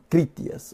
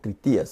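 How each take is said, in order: First: The stress falls on the first syllable. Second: The stress falls on the second syllable.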